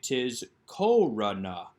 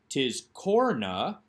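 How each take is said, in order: First: A short vowel is heard between r and n. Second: No vowel is heard between r and n. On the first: The speaker calls it right. "This is actually tis korana" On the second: The speaker calls it wrong. "this is not tis korna"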